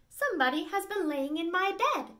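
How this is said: It is said in a middle, medium voice.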